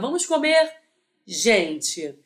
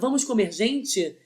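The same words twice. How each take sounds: First: It is said with a pause before gente. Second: It is said without a pause before gente.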